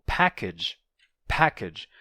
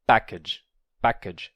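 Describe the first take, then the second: First: "package" with a strong puff on the P; English aspirated P. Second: "package" with no puff on the P, near a B; unaspirated P. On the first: Teacher models English for Portuguese speakers, aspirated "package". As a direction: release the P of "package" with a burst of air. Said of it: "o pa próprio do inglês". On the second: Teacher imitates a Portuguese speaker, unaspirated "package". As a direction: hold back the air on the P of "package". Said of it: "sem fazer o pa próprio do inglês". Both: Shown as a demonstration.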